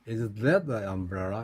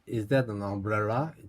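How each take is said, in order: First: The word that carries the main stress. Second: The word umbrella carries the main stress. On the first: The question is about that one, not this one. "저게 우산이냐? 이게 아니고 저게" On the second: The question is whether that thing is an umbrella. "이게 umbrel라에 올라가면 우산이냐가 강조되는 거고"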